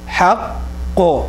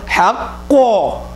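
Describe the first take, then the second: First: The voice stays level on the word. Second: The voice is raised loudly on the word. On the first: The speaker calls it right. "That's just a qalqala thing" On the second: The speaker calls it wrong. "It's not حق. We, we don't we don't raise our voice"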